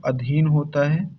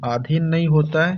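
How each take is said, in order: First: अधीन opened with a short "a"; short first vowel. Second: आधीन opened with a long "aa"; wrong long first vowel. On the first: Teacher giving students the right form, अधीन with short a. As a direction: say अधीन with a brief initial अ, long "ee" after. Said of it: "यहाँ साथियों अधीन होता है". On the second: Teacher showing what "नहीं होता", आधीन with long aa. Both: Shown as a demonstration.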